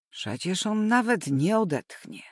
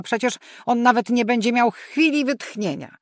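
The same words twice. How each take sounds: First: Said in the usual way. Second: Louder, "chwili" hit with a falling tone; protesting loudly, with "chwili" stressed; exasperated protest. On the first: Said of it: "ostatnią próbę". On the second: A narrator's reading. Mother protests the task list.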